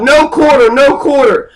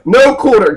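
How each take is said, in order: First: Retold battle cry. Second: Said in the usual way. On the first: Duke shouting to his troops at Culloden, mock battle yell. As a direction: bark it like a duke ordering no mercy. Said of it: "he screams out". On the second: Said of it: "meaning no survivors".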